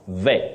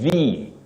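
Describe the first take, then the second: First: The vowel is a short, lower 'e'. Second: The vowel is a long high front 'ee'. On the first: The speaker calls it wrong. "not ve" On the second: The speaker calls it right. "the long high front sound E"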